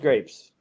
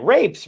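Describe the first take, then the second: First: The word begins with a G sound. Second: The word begins with an R sound.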